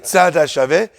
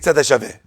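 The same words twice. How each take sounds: First: The two words are said separately and clearly. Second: The two words are run together as one. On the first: "They don't say tzad hashaveh" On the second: "They say tzad hashaveh"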